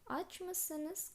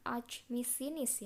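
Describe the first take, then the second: First: The suffix has back vowels, like mısınız. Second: The suffix has front vowels, like misiniz. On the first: The speaker calls it right. "tapi yang kita pakai adalah aç mısınız" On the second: The speaker calls it wrong. "bukan aç mısınız ya"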